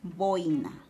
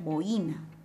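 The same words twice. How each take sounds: First: The stress falls on the o, the first syllable. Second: The stress falls on the i, the second syllable. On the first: The speaker calls it right. "La expresión adecuada es boina" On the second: The speaker calls it wrong. "es incorrecto pronunciar boina"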